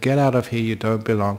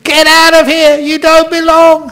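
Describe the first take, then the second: First: It is said at a normal, quiet level. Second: It is shouted with a raised voice.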